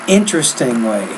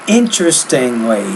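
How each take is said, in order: The two takes are said the same way.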